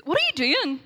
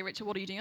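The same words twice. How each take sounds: First: High, loud retold outburst; startled roommate's demand. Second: Level, unraised retold question; God's calm rebuke. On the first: Roommate catches her kneeling on the floor, loud startled demand. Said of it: "all I hear is". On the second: God questions her back in bed, calm understated rebuke. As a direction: imitate God, questioning her without any fuss. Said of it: "I heard God say".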